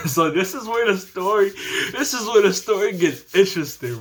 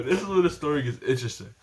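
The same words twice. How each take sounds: First: Chuckling through the teaser; can't hold back a laugh at what's coming. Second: Quick aside. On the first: Laughing build-up to twist. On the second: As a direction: rattle it off again. Quick repeat, softer. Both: Real, not acted.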